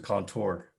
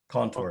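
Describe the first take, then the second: First: The stress is on the last syllable. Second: The stress is on the first syllable. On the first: "as opposed to" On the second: "the first syllable will, will get the, um, the emphasis"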